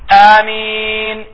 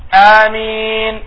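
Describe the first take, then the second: The two takes are said the same way.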